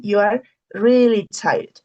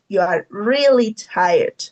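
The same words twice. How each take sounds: First: Said in the usual way. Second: Slow, drawn-out stress on "really"; emphasis on REALLY. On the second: Shown as a demonstration. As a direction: stretch "really" to show it is extreme tiredness. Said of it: "Not only tired".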